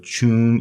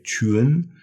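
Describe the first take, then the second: First: CHUN with a single plain oo vowel; without hidden vowel. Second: CHUN drawn out, gliding from oo into a second vowel; missing vowel restored. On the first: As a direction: say "chun" as spelt, one vowel only. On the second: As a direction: say "chun" slowly with the hidden vowel. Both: Shown as a demonstration. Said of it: "there's a missing vowel in here".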